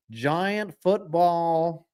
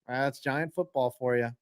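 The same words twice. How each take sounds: First: Very slow, dragged-out "Giant football"; slow, sarcastic "Giant football"; drawn-out Giant football. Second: Said in the usual way. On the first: Shown as a demonstration. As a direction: stretch "Giant football" in weary disgust.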